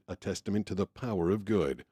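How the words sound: The emphasis falls on the word power. "Power of good"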